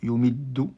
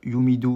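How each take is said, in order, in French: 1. Le son d est tenu et doublé. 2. Le son d est court et simple. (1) "on insiste sur le del" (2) "on dit pas yumidu"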